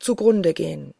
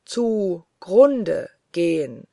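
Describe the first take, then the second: First: Fervent oath. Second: Very slow, drawn-out echo of an oath; echoing words. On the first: Narrator vows to the angel even unto ruin, fervently. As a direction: finish the vow firmly, at normal pace. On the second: The oath resounds back from all walls, slow and hollow. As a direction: stretch each word like an echo off walls. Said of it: "hallte es nach von allen Wänden". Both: A narrator's reading.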